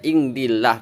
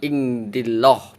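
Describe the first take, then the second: First: The final syllable has a light, thin vowel. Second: The final syllable has a heavy, thick vowel. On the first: The speaker calls it right. "lafadz Allahnya dibaca tipis" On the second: The speaker calls it wrong. "bukan ingdilloh"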